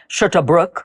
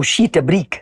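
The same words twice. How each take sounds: First: "shit a brook" with "brook" rounded like "bruk"; South African "shit a brook", vowel sound shown. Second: "sheet a brick" with a long "sheet" like /ʃit/; other South African vowel. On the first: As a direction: say "brook" as /bɹʊk/. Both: Shown as a demonstration. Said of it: "people will say".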